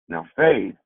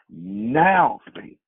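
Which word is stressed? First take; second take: faith; now. First: The stress is on faith. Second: The stress is on now.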